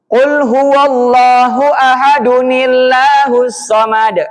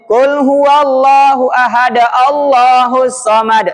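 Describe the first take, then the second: First: Ahad runs into Allahus with an added 'nil' sound. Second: Ahad is followed directly by Allahus, no added n. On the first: The speaker calls it right. "Kalau jenengan mau melanjutkan maka cara bacanya nillah" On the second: The speaker calls it wrong. "Nggak boleh ... Itu salah kaprah itu"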